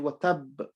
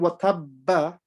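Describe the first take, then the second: First: The word ends on a stopped final consonant. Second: The word ends with an added vowel sound. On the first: The reader stops on the word. The speaker calls it right. "we say watab" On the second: The doubled letter is fully read as if continuing. The speaker calls it wrong. "Instead of saying watabba"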